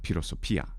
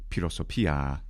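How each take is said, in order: First: The final vowel is kept short. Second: The final vowel is held long. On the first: The speaker calls it wrong. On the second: The speaker calls it right.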